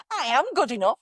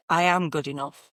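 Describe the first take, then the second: First: High, swooping mock affirmation; trying out inflections. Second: Firm, settled statement of belief; rock solid. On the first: Coach imitates clients testing different inflections, high and lilting. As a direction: try it on with an exaggerated lilt. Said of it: "going through all the different inflections of". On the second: Coach shows the client's final solid conviction, firm and settled. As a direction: plant it as an unshakeable fact. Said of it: "That's solid. That's not going anywhere". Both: Shown as a demonstration.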